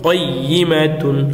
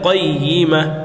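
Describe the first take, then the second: First: The word ends with the syllable tun. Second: The word ends with a plain a sound. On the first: The reciter continues without stopping. "তা দুই পেশতুন" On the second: The reciter stops on this word. "থামলে কয়িমা"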